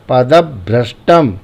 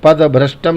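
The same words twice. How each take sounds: First: पदभ्रष्टम with a firm stop, padab-bhrashtam; stressed half consonant. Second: पदभ्रष्टम run quickly as pada-bhrashtam; unstressed wrong version. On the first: Teacher corrects with stress, stopped and punched. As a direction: hit and hold the ब before भ्रष्टम in पदभ्रष्टम. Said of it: "बलाघात का प्रयोग होगा". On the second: Teacher shows what not to say, quick and unstressed. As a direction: glide through पदभ्रष्टम with no stop before भ्र. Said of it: "पदभ्रष्टम नहीं बोलेंगे". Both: Shown as a demonstration.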